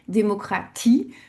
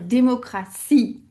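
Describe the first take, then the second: First: The consonant before the last vowel sounds like T. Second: The consonant before the last vowel sounds like S. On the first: "on va garder le son T" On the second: "comme en français avec le son S pour le T"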